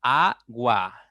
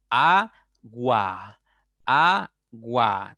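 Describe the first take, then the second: First: Agua said with the lips opening wide on the a; open vowel demo. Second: Agua said slowly, the a held wide open; open vowel demo. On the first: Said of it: "Porque se abren tus labios". (Agua con los labios abiertos) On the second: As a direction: stretch the a in agua, mouth open. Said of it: "¿Te das cuenta por qué la A es abierta?". (agua lenta, con la a bien abierta) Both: Shown as a demonstration.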